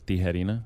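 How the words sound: The name is said with Spanish-style sounds. The speaker calls it right. "it's Tijerina in Spanish"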